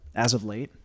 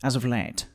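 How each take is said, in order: First: It is said in a normal voice. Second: It is said in a pitched, kingly put-on voice.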